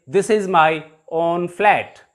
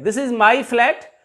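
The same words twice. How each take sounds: First: Slow, with a slight break before "own flat"; emphasis on OWN. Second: Said in the usual way. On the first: Shown as a demonstration. Teacher showing pupils how to emphasize ownership, stressing "own". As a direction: set "own" apart, unhurried, to emphasize ownership. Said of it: "If we want to emphasize the ownership". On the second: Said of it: "If we want to emphasize".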